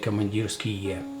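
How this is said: The ending is pronounced the Russian way. The speaker calls it right. "where the Russian people would say Komandirsky"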